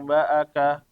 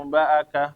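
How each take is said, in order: The two takes are said the same way.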